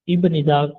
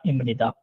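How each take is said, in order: First: The first syllable ends in a b sound. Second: The first syllable ends in an m sound. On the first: This is how it is written. The speaker calls it wrong. "इब निदा लिखने में होगा" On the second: This is how it is actually read. The speaker calls it right. "पढ़ने में होगा इम निदा"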